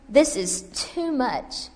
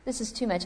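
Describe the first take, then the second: First: Very slow, drawn-out complaint; slow despair. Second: Quieter, resigned repeat; softer echo. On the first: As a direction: stretch each word in weariness. Repeated line, first take. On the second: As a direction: let it fall away, defeated. Repeated line, second take. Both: Acted.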